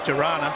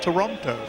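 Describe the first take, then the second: First: The second t is dropped, sounding like Tirana. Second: The second t is clearly pronounced in full. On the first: This is how local people say it. "as the Canadians say" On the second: This is how posh outsiders say it. "Us posh people, we call it Toronto"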